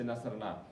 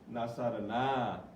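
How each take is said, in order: First: The final vowel is short and clipped. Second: The final vowel is drawn out long. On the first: The women (third person) helped. "This is just a nasarna. Stop there" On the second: We helped. "the big na, okay, with an alif"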